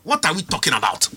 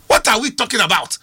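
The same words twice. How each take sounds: First: Said in the usual way. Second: Repeated louder, "are" pushed up. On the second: Real, not acted. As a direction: hit it again, louder and incredulous. Repeats question in disbelief.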